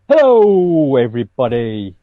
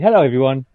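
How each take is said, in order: First: It is said in an overly dramatic, theatrical way. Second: It is said in a plain, ordinary way.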